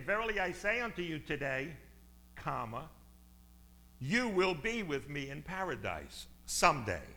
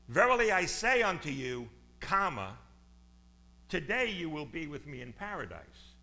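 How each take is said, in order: First: The break comes after 'today'. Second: The break comes before 'today'.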